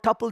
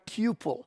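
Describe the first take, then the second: First: The first vowel sounds like the one in 'cup'. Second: The first vowel sounds like the one in 'coo'. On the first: The speaker calls it right. "Some people don't call it tuple" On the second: The speaker calls it wrong. "they should call them cuple"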